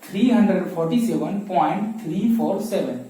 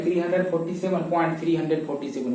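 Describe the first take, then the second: First: "पॉइंट थ्री फ़ोर सेवन" with each digit after the point read singly; the correct way, single digits after the point; right reading demo. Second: "पॉइंट थ्री हंड्रेड फ़ोर्टी सेवन" read as a whole number after the point; the wrong way, decimal read as a full number; wrong reading demo. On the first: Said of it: "कैसे पढ़ना है". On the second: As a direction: decimal part wrongly read as three hundred forty seven. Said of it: "इसे ऐसे नहीं पढ़ेंगे". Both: Shown as a demonstration.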